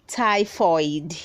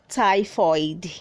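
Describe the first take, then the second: The two takes are said the same way.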